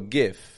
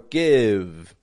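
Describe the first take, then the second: First: The word ends with a voiceless F sound. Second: The word ends with a voiced V sound. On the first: The speaker calls it wrong. "they'll go gif" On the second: The speaker calls it right. "Or give"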